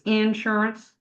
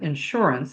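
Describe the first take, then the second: First: It is said in a Texas accent. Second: It is said in a general American accent.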